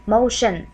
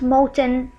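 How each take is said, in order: First: "motion" with sh in the middle; correct sh sound. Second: "moten" with a hard t in the middle; "moten", a deliberate misreading of motion; wrong hard T. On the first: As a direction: say "motion" as mo-shun, falling. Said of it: "no, you will say motion". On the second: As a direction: say "moten" as spelt, t not sh. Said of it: "So it will be not moten". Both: Shown as a demonstration.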